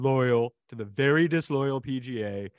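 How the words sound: It is read in a put-on imitated voice.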